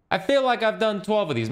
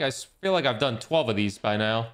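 First: Exasperated. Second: Said in the usual way. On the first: Shown as a demonstration. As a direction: throw it up in disbelief.

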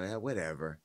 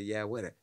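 First: Wendy's voice. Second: Said in the usual way. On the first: Retold or imitated. Host imitating Wendy brushing off a statement, lightly voiced. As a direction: toss it off the way Wendy would. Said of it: "This is how Wendy would talk". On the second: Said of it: "maybe they wrote something for her and say".

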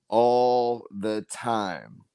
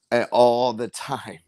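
First: All the time drawn out very slowly, each word weighted; slow emphatic repeat. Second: Said in the usual way. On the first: Shown as a demonstration.

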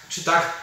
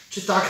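The two takes are said the same way.

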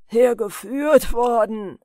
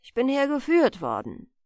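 First: Loud, slow, drawn-out scornful echo; jeering. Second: Said in the usual way. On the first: A narrator's reading. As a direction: throw the words back with loud mockery. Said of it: "höhnte der andere". (höhnisch nachgeäfft, laut und gedehnt) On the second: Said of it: "antwortete weiter webend der Alte".

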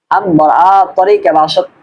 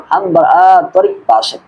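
First: তরিক linked to বাসাত with an added "e"; others' pronunciation. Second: তরিক ending on a plain k, long আ before it; correct pronunciation. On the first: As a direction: say "torike basat" in হাম বার আ তরিক বাসাত. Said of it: "এরকম বলে". (হাম বার আ তরিক বাসাত, "তরিকে" উচ্চারণে) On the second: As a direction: stretch আ, say তরিক without an added "e". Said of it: "তবে সঠিক উচ্চারণ হলো". (হাম বার আ তরিক বাসাত, "তরিক্" হসন্ত উচ্চারণে) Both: Shown as a demonstration.

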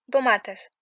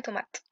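First: "tomates" begun with a voiced d; Greek pronunciation. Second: "tomate" with a French t; softer "tomate", begun with t; wrong pronunciation. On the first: Teacher reading Greek to learners, "tomates" with initial d. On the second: Teacher warning learners off the French way, "tomate" with t. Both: Shown as a demonstration. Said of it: "Jamais tomate".

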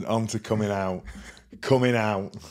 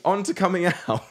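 First: "coming out" repeated with a rounded "COOM-ing"; echoed coming out. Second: High-pitched "coming out", in the speaker's own southern accent; usual coming out. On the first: Retold or imitated. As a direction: echo it back with an OO-like vowel in "coming". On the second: Shown as a demonstration. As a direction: say "coming" with an open "kum" as CUH-ming, pitched up. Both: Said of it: "you say it different to me".

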